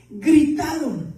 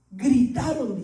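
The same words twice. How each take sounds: First: Gritaron drawn out slowly and firmly; slow emphatic repeat. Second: Said in the usual way. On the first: Shown as a demonstration. Pastor stresses to the church that the disciples shouted, slowly.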